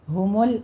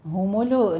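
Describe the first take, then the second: First: ہُمُل with the لام cut short; correct stop. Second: ہُمُلُ with an added vowel after the لام; wrong vowel. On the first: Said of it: "ہُمُل stop کریں گے۔". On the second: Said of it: "ہُمُلُ نہیں کہنا،". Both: Shown as a demonstration.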